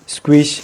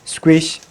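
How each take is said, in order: Both takes have the same delivery.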